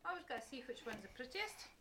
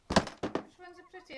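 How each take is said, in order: First: Said in the usual way. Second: High, slow and loud; drawn-out singsong question; playful sing-song. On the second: Pretend. Mother playing dolls with child.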